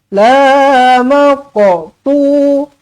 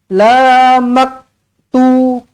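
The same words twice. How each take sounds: First: The q sound is released with a bouncing echo. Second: The q sound is held flat, without a bounce. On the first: The speaker calls it right. "Qalqalah kena lan, kena lantun" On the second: The speaker calls it wrong. "Jangan baca macam ni"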